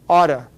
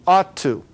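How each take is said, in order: First: The words are said fast, blended into one. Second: Both words are said fully and separately.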